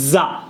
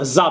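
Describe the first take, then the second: First: "জা" with a j, as ja; wrong j sound. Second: "জা" with a z, as za; correct z sound. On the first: Teacher rejects the wrong sound, saying JA. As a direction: say জা like English "jar" without r. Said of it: "জা বলবো না". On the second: Teacher gives the right sound, saying ZA. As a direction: buzz the start of জা into "za". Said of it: "জা বলবো". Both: Shown as a demonstration.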